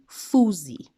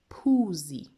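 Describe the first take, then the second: First: The word begins with an F sound. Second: The word begins with a P sound. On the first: The speaker calls it wrong. "this is not fuzi" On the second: The speaker calls it right. "So this is phuzi"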